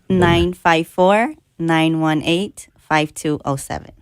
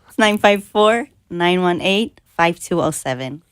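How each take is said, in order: First: It is said slowly. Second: It is said at normal speed.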